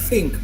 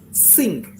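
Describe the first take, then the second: First: The word begins with a breathy th sound. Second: The word begins with a hissing s sound. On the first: The speaker calls it right. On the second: The speaker calls it wrong.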